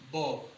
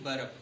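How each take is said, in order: First: The r sound is left silent. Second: The r sound is pronounced. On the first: The speaker calls it right. "इसका भी आर silent रहता है" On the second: The speaker calls it wrong. "ना कि वर्ब"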